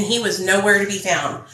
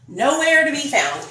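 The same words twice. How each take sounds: First: Said in the usual way. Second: "Nowhere" pitched high, then falling away; emphatic repeat, "Nowhere" raised high; stress on Nowhere. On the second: Real, not acted. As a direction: lift and stretch "Nowhere" in disbelief.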